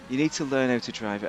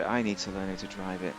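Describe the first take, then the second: First: Said in the usual way. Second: "I" stressed as the self-correction of "you". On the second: Real, not acted. Streamer corrects himself, stressing "I". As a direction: lean on "I" in "I need to learn".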